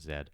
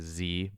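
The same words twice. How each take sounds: First: The letter is said the Canadian way, zed. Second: The letter is said the American way, zee.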